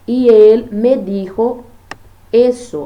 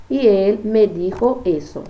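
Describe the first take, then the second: First: Loud, slow "dijo eso"; a teacher stressing "dijo eso"; emphatic example. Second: Said in the usual way. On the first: Shown as a demonstration. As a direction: push "dijo eso" out slowly and firmly. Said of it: "eu substituindo por, pelos pronomes". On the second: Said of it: "eu substituindo por".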